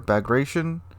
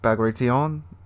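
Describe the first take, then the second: First: The name is said without a French sound. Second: The name is said with a French sound.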